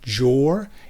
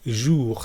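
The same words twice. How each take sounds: First: The word begins with a hard J sound. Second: The word begins with a soft J sound. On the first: The speaker calls it wrong. "it's not a hard J sound. It's not jour" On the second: The speaker calls it right. "It's jour"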